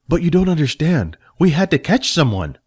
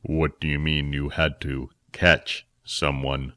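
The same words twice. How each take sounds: First: Lightly higher, defensive; a young helper pleading his case; Jack protesting. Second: Much lower, softer and slow; a stern elder questioning the story; Phil, sceptical. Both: Acted.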